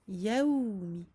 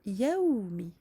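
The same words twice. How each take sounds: No difference in how they are said.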